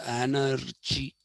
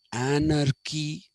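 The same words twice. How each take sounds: First: "anarchy" said slowly as an-ar-chee; mispronounced anarchy. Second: "anarchy" said slowly as an-ar-kee; k sound in anarchy. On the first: Teacher showing what we don't say, "anarchy" with ch. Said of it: "We don't say". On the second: Teacher giving a second example, "anarchy" with k. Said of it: "when we say monarchy". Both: Shown as a demonstration.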